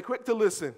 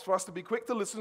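First: "Quick to listen." called out higher and louder; congregation call. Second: Said in the usual way. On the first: Shown as a demonstration. Preacher leading congregation to repeat, calling out. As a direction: lead the room through "Quick to listen.". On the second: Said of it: "That is what God wants".

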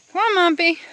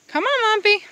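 First: Loud high call to a goat; sing-song call across the field. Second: Even higher loud call; louder, higher call to the goat. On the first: Calling goat in. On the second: Calling goat again. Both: Real, not acted.

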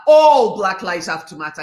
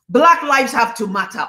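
First: Emphatic, insistent All at the start; stress on All. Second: Said in the usual way. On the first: Real, not acted. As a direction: punch the word All hard, then carry on. Restates it adding All.

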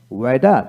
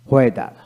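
First: ওয়েদার said "weda", plain w. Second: ওয়েদার said "hweda"; sounded H. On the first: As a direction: say ওয়েদার without any h. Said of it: "আমেরিকানে অ উচ্চারিত". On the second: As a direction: begin ওয়েদার with h before the w. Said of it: "ব্রিটিশে হ উচ্চারিত হয়". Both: Shown as a demonstration.

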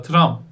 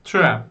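First: Tram with a Turkish a, as in tramvay; Turkish reading. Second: Tram with the English ae vowel, træm; English pronunciation. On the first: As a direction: Tram read the Turkish way, the wrong one. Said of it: "Tram diye okumuyorsunuz İngilizce'de". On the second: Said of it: "Söyleyin bir dışınızdan". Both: Shown as a demonstration.

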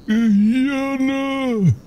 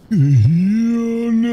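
First: Drawn-out zombie moan. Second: Moaning zombie voice. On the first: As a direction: moan it out like the undead. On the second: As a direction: groan it like a hungry zombie. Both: Pretend. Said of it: "Die läuft wie ein Zombie".

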